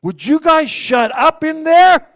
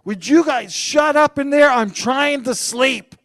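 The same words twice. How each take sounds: First: High, loud, slow call, laughing; loud laughing mock complaint; calling out annoyed. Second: Serious complaint. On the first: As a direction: yell through the closet door. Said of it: "I'm like". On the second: Retold or imitated. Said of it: "I was serious too".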